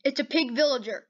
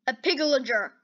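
First: Said in the usual way. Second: "pigillager" run together, the v of villager swallowed; tongue-tied pronunciation. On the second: Real, not acted. Gamer trips over the pig villager's name, tongue-tied on "pigillager". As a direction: stumble "pigillager" into one blurred word. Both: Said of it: "that is really hard to say".

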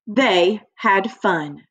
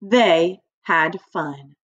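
First: They had fun said slowly, word by word; careful slow read for children; slow model reading. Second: They had fun said slowly together with the class; slow unison read aloud; slow choral reading. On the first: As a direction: model it slowly for the class to copy. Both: Shown as a demonstration. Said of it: "Everybody say that with me".

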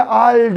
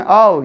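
First: Al with a softened L. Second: Al with a plain, hard L. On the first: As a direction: soften the sound of al. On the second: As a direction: say Al with the L unsoftened. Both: Shown as a demonstration. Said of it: "okumaya göre yumuşatabiliriz onu".

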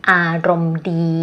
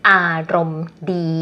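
No difference in how they are said.

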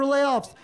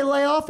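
First: LAYOFFS with a clear final s; plural S. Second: Said in the usual way. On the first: Pretend. Listener checking which word was said, clear final s on LAYOFFS. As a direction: sound the s at the end of LAYOFFS.

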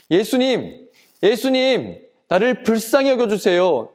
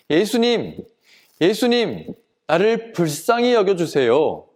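First: Higher-pitched urgent call for mercy; acted crying out. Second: Restrained cry for help; mild acted shout. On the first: Blind man undaunted by the crowd, crying out to Jesus. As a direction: cry out insistently, pitch raised. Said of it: "더욱더 큰 소리로 외쳤어요". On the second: Blind man calling toward where Jesus might be, mild shout. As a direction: call out pleadingly without full force. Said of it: "고함을 쳤어요".

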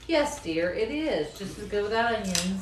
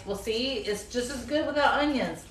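First: Dry, mock-agreeing yes dear; sarcastic. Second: Said in the usual way. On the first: Wife mocking husband's onion claim, dry sarcasm. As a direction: agree while clearly not meaning it. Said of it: "That's a lot of sarcasm in that statement". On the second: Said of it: "And he's like".

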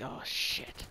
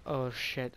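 First: Breathy whisper to himself; whispered thought. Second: Said in the usual way. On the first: Retold or imitated. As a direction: whisper it under your breath, dismayed. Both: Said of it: "thinking in my head".

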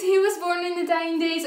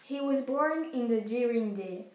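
First: "dying days" said clearly in English, higher and slow; correct English reading. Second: "during day" said with a French accent, slowly, in place of "dying days"; unsure English reading. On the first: Shown as a demonstration. Big sister correcting the English reading, slow and clear. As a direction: model "he was born in the dying days" carefully in English. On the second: Real, not acted. Reading an English line she can't pronounce, hesitant French accent. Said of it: "Je sais pas comment ça se dit".

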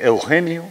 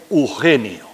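First: "Eugenio" with the initial E before the U; full diphthong. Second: "Eugenio" said as "Ugenio"; "Eugenio" starting straight on a U sound; Canarian dropped E. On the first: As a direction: say "Eugenio" with EU intact. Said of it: "no decimos Eugenio". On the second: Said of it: "Le solemos quitar la primera letra". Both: Shown as a demonstration.

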